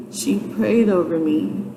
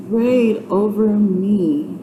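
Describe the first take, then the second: First: Said in the usual way. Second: Prayed stretched slowly with stress on prayed; emphatic repeat. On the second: Real, not acted. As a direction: lean into prayed and draw out the whole phrase. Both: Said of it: "when I say she".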